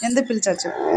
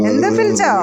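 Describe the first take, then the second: First: Said in the usual way. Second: Loud, higher repeat of ఎందుకు పిలిచావు with stress on పిలిచావు; loud call. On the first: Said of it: "repeated louder take". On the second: Acted. Owner calling her pet, loud and demanding. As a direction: call it out firmly. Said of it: "repeated after plain take".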